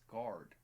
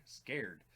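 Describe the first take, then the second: First: "Scarred" with an AR vowel, rhyming with "hard"; mispronounced word. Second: "Scared" with an AIR vowel, rhyming with "dared"; self-corrected pronunciation. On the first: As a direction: say "Scarred" like "guard", drawn out. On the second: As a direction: correct it firmly to "Scared", like "cared". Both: Real, not acted.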